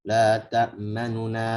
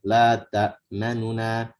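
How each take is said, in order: The two takes are said the same way.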